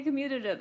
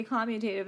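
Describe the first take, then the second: First: Quick, high "commutative" stressed on MYU; requested pronunciation. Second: "commutative" with a clear TAY: COM-mu-tay-tive; habitual pronunciation. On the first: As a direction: say "commutative" as com-MYU-tuh-tive, fast. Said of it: "You want me to say commutative". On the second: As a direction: say "commutative" your own way, COM-mew-TAY-tiv. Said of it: "I always say commutative". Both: Shown as a demonstration.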